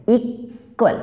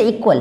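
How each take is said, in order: First: equal broken in two, long pause after इक; syllable-by-syllable demo of equal; split into syllables. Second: Said in the usual way. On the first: Shown as a demonstration. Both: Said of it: "जहाँ पे word जो टूटता है".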